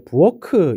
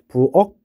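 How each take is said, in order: First: The final consonant is released with an extra vowel. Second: The word ends in a plain unreleased k stop. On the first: The speaker calls it wrong. "이렇게 발음 안 하죠" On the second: The speaker calls it right. "이렇게 기역으로 바꿔서 발음하게 됩니다"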